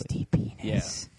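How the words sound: It is whispered very quietly.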